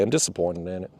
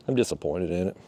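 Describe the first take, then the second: First: Low, soft and let down; same deflated drop, said once more; quietly disappointed. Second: Low, soft and let down; quietly disappointed. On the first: Angler repeating his verdict on the motor, quiet and deflated. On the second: Angler telling viewers about the motor, quiet and disappointed. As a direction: sink the voice, genuinely deflated. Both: Real, not acted.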